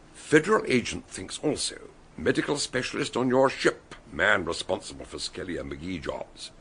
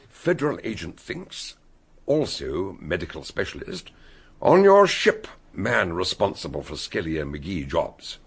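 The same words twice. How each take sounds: First: It is read with few pauses. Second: It is read with many pauses.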